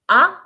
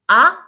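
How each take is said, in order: No difference in how they are said.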